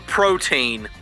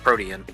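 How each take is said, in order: First: The word is said with two syllables. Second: The word is said with three syllables.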